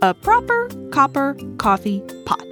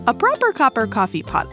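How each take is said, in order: First: It is said at a slow, easy pace. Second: It is said at a quick pace.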